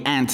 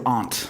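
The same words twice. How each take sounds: First: It is said with an American accent. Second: It is said with a non-American accent.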